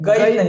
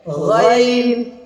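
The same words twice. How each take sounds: First: The first sound is plain, not from the throat. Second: The first sound is made deep in the throat. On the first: The speaker calls it wrong. "गैन नहीं, गैन गाफल आवाज हो जाएगा" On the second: The speaker calls it right. "गैन यहाँ से हलक से अदा होता है"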